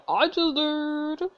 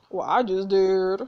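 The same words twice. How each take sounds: First: High, slow, smug drawl. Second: Slow, defiant retort. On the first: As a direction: savour the comeback. Repeated smug. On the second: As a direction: throw it back defiantly. Defiant answer to villain. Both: Real, not acted.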